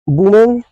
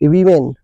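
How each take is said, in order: First: The first vowel sounds like 'oo' in book. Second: The first vowel sounds like 'i' in bit. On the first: The speaker calls it wrong. "अब यहाँ वुमेन पढ़ते हैं" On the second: The speaker calls it right. "ये correct pronunciation है वीमेन"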